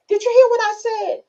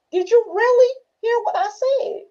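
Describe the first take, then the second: First: Very high, louder acted question; playful high-voiced demand for an answer; mock questioning. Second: Very high question with "really" leaned on; mock grilling, high, "really" picked out; stress on "really". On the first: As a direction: pitch it way up, testing the listener. Acts out checking on a listener. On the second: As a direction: press hard on "really", voice pitched up. Presses the question harder.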